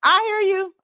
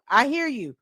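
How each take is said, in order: First: High, loud cry of recognition; joyful high shout of I hear you; excited exclamation. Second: A calmer repeat, still a bit raised; gentle echo of I hear you; softer echo. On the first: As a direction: burst out, high and loud, answering God. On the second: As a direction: settle back into the words. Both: Real, not acted. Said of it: "I hear you loud and clear".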